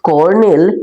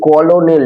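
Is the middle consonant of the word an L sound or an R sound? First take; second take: R sound; L sound. First: The word is said with an R sound in the middle. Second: The word is read with an L sound in the middle. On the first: The speaker calls it right. "উচ্চারণটা হচ্ছে কর্নেল" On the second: The speaker calls it wrong. "কলোনেল লেখা আছে কিন্তু এটা উচ্চারণটা কি কিন্তু"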